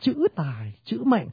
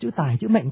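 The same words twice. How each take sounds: First: The words carry equal strong stress throughout. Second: Strong and weak stresses alternate across the words. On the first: The speaker calls it right. "người ta đọc là chữ tài chữ mệnh" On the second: The speaker calls it wrong. "không ai đọc câu thơ đọc chữ tài chữ mệnh I am cả"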